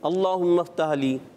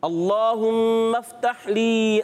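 First: It is rushed and the h sound is dropped. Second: It is careful and the h sound is clear. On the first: The speaker calls it wrong. "بعض بچے اس کو پڑھ دیتے ہیں ... ایسے جلدی میں پڑھ رہے ہوتے ہیں، ... یہ ہا چھوڑ گیا" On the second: The speaker calls it right. "مگر کوشش کریں کہ دونوں ہا ہا کلیئر ہیں"

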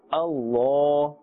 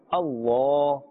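First: The l sound is heavy, with a full mouth. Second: The l sound is heavy, with a full mouth.

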